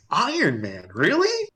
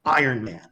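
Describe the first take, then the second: First: Doubtful echo, then a high questioning "really?"; retold disbelief. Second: Said in the usual way. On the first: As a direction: question it sceptically, voice leaping up at the end. Teller doubts the announced film.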